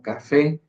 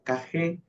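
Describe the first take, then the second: First: The middle consonant is a clear f sound. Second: The middle consonant is a breathy h sound. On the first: "como hoy en día nosotros lo conocemos como" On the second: "en el español de Andalucía se decían como"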